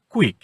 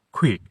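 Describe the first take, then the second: First: Said in the usual way. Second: "কুইক" with a puff after the first k; aspirated K. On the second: Shown as a demonstration. Teacher models "কুইক" for children, aspirated k. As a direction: aspirate the opening sound of "কুইক". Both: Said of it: "এটার উচ্চারণ হবে".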